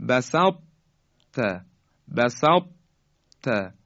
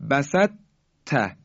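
First: بسط ت with a heavy, unreleased ط, then a clear ت; incomplete merging. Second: بسط ت with ط turned into a light doubled ت; fully merged Ta. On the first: Tajwid teacher models it for learners, بسط ت keeping the heavy ط. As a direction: hold the heavy ط of بسط, pause, release on ت. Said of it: "اما به این شکل باید بگیم". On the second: Tajwid teacher shows learners what not to say, بسط ت fully merged. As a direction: say بسط ت as a light "basat-ta", no heaviness. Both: Shown as a demonstration.

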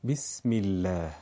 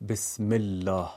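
First: "بسم الله" with a clear i as bism illa; Arabic-style basmala; Arabic kasra i. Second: "بسم الله" with a Persian e as besm ella; Persian-style basmala; wrong Persian e sound. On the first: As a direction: say "بسم الله" with a pure short i. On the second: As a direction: say "بسم الله" with a short e, not i. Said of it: "نمیگیم". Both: Shown as a demonstration.

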